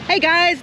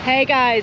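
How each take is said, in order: First: It is said with more excitement. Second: It is said in a flat, dull way.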